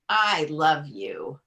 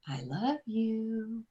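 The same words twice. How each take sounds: First: It sounds warm but plain, not intimate. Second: It sounds soft, intimate and suggestive. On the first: The person is very dear to me. "with tone of voice and body language" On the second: It invites further intimate action. "Doesn't sound at all like"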